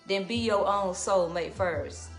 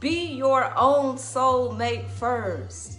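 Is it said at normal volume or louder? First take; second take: normal; louder. First: It is said at normal speaking volume. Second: It is said louder, with more force.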